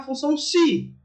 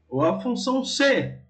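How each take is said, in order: First: The last word sounds like the word 'se'. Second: The last word sounds like the letter C.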